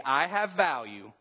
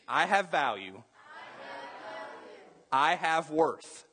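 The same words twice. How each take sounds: First: Said in the usual way. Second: Firm, deliberate declaration, slower on worth; mean every word of I have value; preacher's emphatic affirmation; say it like you mean it. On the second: Shown as a demonstration. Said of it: "Somebody say it like you mean it".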